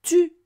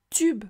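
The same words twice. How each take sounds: First: "Tube" split in two, "tu", pause, "be"; syllable by syllable. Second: Said in the usual way. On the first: Shown as a demonstration. Teacher helps child hear the syllable, "Tube" broken apart. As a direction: sound out "Tube" as two separate, emphatic pieces. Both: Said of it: "Tu entends bien la syllabe B".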